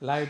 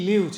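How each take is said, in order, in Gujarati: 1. સ્વર લાંબો 'eye' અવાજ છે. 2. સ્વર ટૂંકો 'ih' અવાજ છે. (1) "ઉચ્ચાર બદલ્યો ત્યાં એડજેક્ટિવ બની ગયું" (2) "એનો ઉચ્ચાર કરો તો રહેવું થાય"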